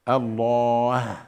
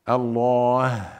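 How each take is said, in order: Both takes have the same delivery.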